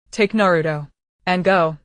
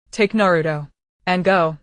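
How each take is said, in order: First: Raspy, dying resolve. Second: Hoarse, dying final command; a hoarse farewell order. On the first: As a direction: rasp it out like an old bellows. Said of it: "voice was as raspy as an old bellows". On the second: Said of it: "That hoarse voice, like a broken bellows". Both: Acted.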